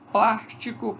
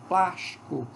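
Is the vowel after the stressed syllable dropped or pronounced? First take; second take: pronounced; dropped. First: All three syllables are fully pronounced. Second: The vowel after the stressed syllable is dropped.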